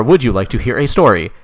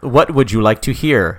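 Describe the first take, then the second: First: Lightly voiced eighties computer question; a hint of eighties machine speech. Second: Slow, lightly robotic computer question; old robotic voice. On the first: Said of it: "like, an eighties voice". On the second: Acted. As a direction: ask like an old computer, slowly. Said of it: "like, an old robotic voice".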